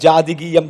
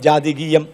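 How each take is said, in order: Both takes have the same delivery.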